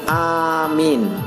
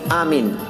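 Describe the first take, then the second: First: The first vowel is long and the m short. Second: The first vowel and the m are both short. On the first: "dengan memanjangkan hamzah dan memendekkan mim" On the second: "dengan cara memendekkan hamzah dan mim"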